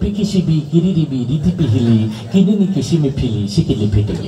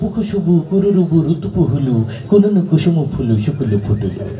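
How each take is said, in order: First: Every syllable uses the vowel i. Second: Every syllable uses the vowel u. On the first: The i vowel sign had just appeared. "রস্মিকার আবিষ্কার হইলো" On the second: The u vowel sign had just appeared. "রস্যুকার আবিষ্কার হইলো"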